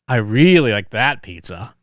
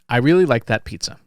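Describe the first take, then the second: First: It is said in a sarcastic tone. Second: It is said in a neutral, sincere tone. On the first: The speaker did not like the pizza. "The intonation communicates some of that sarcasm" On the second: The speaker liked the pizza. "that's a fairly neutral sentence, right? It's a fairly neutral tone"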